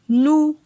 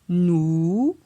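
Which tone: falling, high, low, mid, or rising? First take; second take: mid; rising. First: The syllable has a mid tone. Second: The syllable has a rising tone. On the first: "Ton moyen" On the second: "Ton montant"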